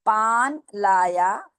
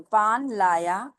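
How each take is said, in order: First: पान लाया read slowly, word by word; slow teacher model of पान लाया. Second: पान लाया repeated slowly after spelling; slow model पान लाया after spelling; slow model reading. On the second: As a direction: read पान लाया slowly again for learners. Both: Shown as a demonstration. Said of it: "मैं पढ़ के सुनाती हूँ".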